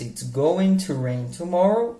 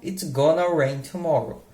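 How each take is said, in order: First: Going to is said in full, two words. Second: Going to is reduced to one word, gonna. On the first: "do going to" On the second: "que vira gonna"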